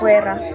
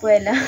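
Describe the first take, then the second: First: The middle consonant is an R sound. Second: The middle consonant is an L sound. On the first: "Pag may puwera" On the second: "Ganun siya"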